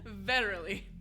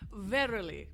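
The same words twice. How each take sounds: First: It is said in a Texan accent. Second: It is said in a British accent. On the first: The speaker calls it wrong. "But in Texas" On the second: The speaker calls it right. "you must say it with the British accent"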